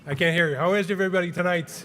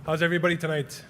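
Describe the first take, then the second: First: Louder, higher hype-man crowd call; Rob. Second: Lightly hyped-up stage greeting; Rob. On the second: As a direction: open like a showman warming up the crowd, mildly. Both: Acted. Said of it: "that's my best impression of Rob".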